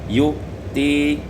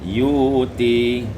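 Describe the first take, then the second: First: A glottal stop comes before the t. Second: No glottal stop; a long u leads into t.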